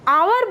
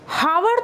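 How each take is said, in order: First: The word starts without an h sound. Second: The word starts with an h sound. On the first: The speaker calls it right. "हम आवर बोलते हैं" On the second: The speaker calls it wrong. "हावर तो बोलते नहीं हैं"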